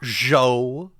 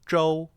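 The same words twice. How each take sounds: First: The first consonant is plain, tongue not curled. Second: The first consonant is retroflex, tongue curled back. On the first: The speaker calls it wrong. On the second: The speaker calls it right. "Your tongue curls back. It's like a spicy J"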